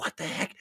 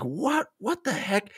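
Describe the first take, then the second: First: A hushed, voiceless What the heck?; whispered. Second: Higher, rising puzzled question; mock confused What the heck?; baffled. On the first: Retold or imitated. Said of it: "And I was like". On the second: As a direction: scratch your head at the page. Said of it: "at first I was like".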